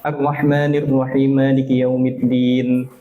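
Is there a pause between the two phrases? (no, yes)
no. The phrases run together without any pause. The speaker calls it wrong. "dia nyambung tapi dia ngilangkan huruf satu"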